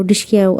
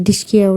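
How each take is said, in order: First: Mock gunshot noise again. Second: Spoken gunshot sound, light and playful; mock gunshot noise. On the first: [name] miming the shot to Mahipat, mock gunshot noise. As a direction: repeat the "dishki" toy-gun bang. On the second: [name] acting out shooting for Mahipat, mock gunshot noise. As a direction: go "dishki" like a toy gun firing. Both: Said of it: "असं करून".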